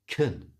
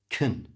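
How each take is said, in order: First: The word has a weak, reduced vowel. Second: The same.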